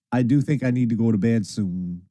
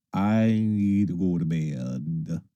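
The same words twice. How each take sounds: First: Said in the usual way. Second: Low, very slow and drawn out; sleepy drawl. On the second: Real, not acted. Streamer admits bedtime is due, sleepy drawl. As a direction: drag the words out as if nodding off.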